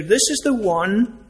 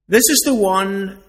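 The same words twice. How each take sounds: First: Said in the usual way. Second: Louder, leaning hard on "is"; stress on is. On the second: Shown as a demonstration. Preacher pressing the congregation, stress on "is". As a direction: punch the word "is". Preacher repeating to drive home.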